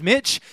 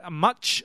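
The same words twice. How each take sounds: First: Said in the usual way. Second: Mitch said as "Much"; local-style pronunciation. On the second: Shown as a demonstration. Visiting speaker offers locals their way of saying his name, "Much". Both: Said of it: "if you like to say it like that".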